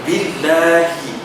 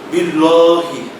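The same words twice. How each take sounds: First: The L sound is thin and light. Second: The L sound is thick and heavy. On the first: The speaker calls it right. "Harusnya dibaca tarkib tipis" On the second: The speaker calls it wrong. "Ini juga terkadang ada yang membacanya tebal"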